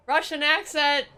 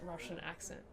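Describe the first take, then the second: First: Loud, high, drawn-out holler; calling out. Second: Said in the usual way. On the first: Real, not acted. Streamer wants her husband to come do an accent, calling out. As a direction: call across the house, slow and high.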